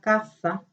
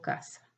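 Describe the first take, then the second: First: The first z is said like English th. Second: The z is said like a plain s. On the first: "como lo hace España" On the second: "decimos casa"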